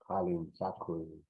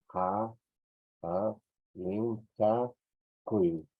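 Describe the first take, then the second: First: Said in the usual way. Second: Ha, lin, cha, kui, split into separate beats with pauses; slow dictation, each syllable of Halin chaku set apart. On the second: Shown as a demonstration. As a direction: spell out Halin chaku one syllable at a time.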